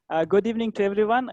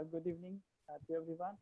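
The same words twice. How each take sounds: First: Louder, brisk greeting; raised volume, quick pace; audible, louder. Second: Very soft, faint greeting; barely audible. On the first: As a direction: speak up quickly so everyone can hear. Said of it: "Am I audible now?". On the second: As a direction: greet the room far too quietly to be heard. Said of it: "can you speak a bit louder". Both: Real, not acted.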